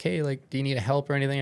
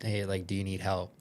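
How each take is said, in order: First: Shouting to a swimmer far off, quick and urgent; calling out. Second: Said in the usual way. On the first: Retold or imitated. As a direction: call out across the water, fast and louder. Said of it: "I'm now calling him". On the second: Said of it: "as I was about to ask".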